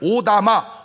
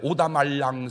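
First: The word is said plainly, without added syllables. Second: The word is said with extra syllables added. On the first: The speaker calls it right. "그거를 오다마, 수리미 이렇게" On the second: The speaker calls it wrong. "내가 말을 못해가지고 오다말랑"

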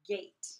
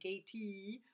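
First: The word ends without an extra vowel sound. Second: The word ends with an extra vowel sound. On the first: The speaker calls it right. "And the E doesn't make any sound" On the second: The speaker calls it wrong. "We don't say gatey or anything like that"

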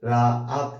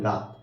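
First: The word is broken into two separate parts. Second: The word is said in one unbroken go. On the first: The word counts as two syllables. "রা আত এভাবে বলছেন" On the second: The word counts as one syllable. "একবারে বলছেন রাত"

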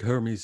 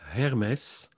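First: The name is said with English pronunciation. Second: The name is said with Dutch pronunciation. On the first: "Hermes is pretty good in English" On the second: "in Dutch, it's Hermes"

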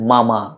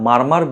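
First: It sounds like 'mama', with no r sound. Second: Both syllables have an 'ar' vowel with r. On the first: The speaker calls it right. "সঠিক উচ্চারণ হচ্ছে মামা, আমরা যেই মামা মামির সেই মামা" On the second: The speaker calls it wrong. "এটা আমরা মারমার বলি"

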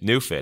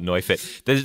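First: The name is said the plain English way. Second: The name is said with German-style vowels. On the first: The speaker calls it right. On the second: The speaker calls it wrong.

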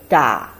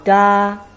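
First: It is said with a low dipping pitch. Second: It is said with a high level pitch. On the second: "Then we go for the first tone"

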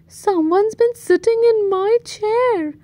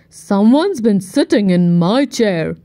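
First: It is rumbled in Mommy Bear's voice. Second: It is growled in Daddy Bear's voice.

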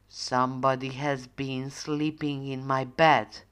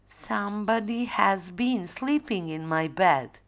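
First: The voice is deep and growly. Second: The voice is soft and quiet. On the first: Father Bear is speaking. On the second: Mother Bear is speaking.

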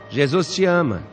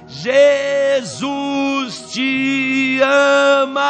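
First: It is said very quietly. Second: It is shouted very loudly.

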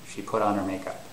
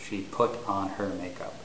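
First: The h is dropped, so her sounds like er. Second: The h at the start of her is pronounced. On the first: The speaker calls it right. "It's more like" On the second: The speaker calls it wrong. "It's not normal to say"

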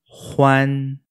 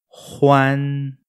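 No difference in how they are said.

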